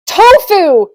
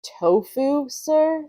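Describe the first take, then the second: First: Loud, high exclamation, falling at the end; triumphant. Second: "Tofu, sir" as a question, rising on sir; doubtful question. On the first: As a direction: shout it out like a winning answer. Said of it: "he said triumphantly". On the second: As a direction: echo "Tofu" without force, lifting "sir" to ask. Manager's doubtful echo. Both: Acted.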